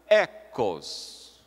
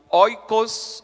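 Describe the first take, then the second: First: The word begins with a plain 'e' vowel. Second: The word begins with an 'oi' diphthong. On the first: This is the modern Greek pronunciation. "vira no grego moderno E" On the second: This is the ancient Greek pronunciation. "no grego antigo, o ditongo ômicron, iota, ou O, I"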